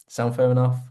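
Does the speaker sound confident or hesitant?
confident. It is asked in a relaxed, confident tone. The speaker is sure the deal is reasonable. The speaker calls it right. "come on, sound fair enough? You see the tone"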